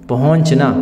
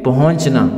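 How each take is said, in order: No difference in how they are said.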